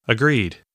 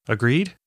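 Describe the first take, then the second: First: Agreed. with a falling, settled tune; firm falling answer. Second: Agreed? with a rising question tune; questioning rise. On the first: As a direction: answer Agreed. with the pitch dropping at the end. Nat answering the question. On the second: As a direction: ask Agreed? with the pitch lifting at the end. Asking Nat to agree. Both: Acted.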